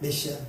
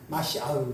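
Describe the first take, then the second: First: It starts with 'me' and ends in 'a'. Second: It starts with 'ma' and ends with 'ah'. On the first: This is the common borrowed form of the word. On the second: This is the original Hebrew pronunciation.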